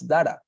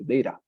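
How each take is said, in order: First: The middle consonant is a clear T sound. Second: The middle consonant is a quick R-like flap. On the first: The speaker calls it wrong. "I also pronounce it as, as data" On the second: The speaker calls it right. "you pronounce it like data with with an R, actually, data, like that"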